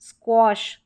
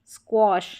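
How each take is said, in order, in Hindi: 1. यह स्वर gosh के o जैसा होता है। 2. यह स्वर gosh के o जैसा होता है।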